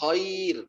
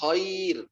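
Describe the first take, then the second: First: The vowel after kh sounds like 'a'. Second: The vowel after kh sounds like 'a'.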